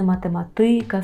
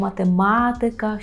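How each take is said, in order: First: The stress falls on the second-to-last syllable. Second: The stress falls on the third-from-last syllable. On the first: The speaker calls it wrong. "Чому не математика" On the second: The speaker calls it right. "наголошуємо третій склад з кінця"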